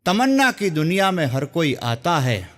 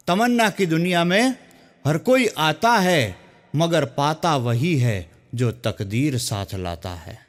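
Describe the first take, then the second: First: Shayari recital. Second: Slow, drawn-out poetic recital; shayari recital. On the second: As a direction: savour each line like a poet on stage. (ધીમે, અટકી અટકીને શાયરીની રજૂઆત) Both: Shown as a demonstration. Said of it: "એક સુંદર મજાની શાયરીથી".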